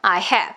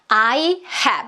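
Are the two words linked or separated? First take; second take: linked; separated. First: The two words run together as one word. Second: The two words are said apart, not joined. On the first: "강세가 해 뒤쪽에 있는 다다의 리듬의 긴 단어" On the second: "이렇게 떨어뜨리지 않고"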